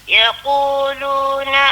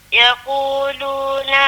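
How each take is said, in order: No difference in how they are said.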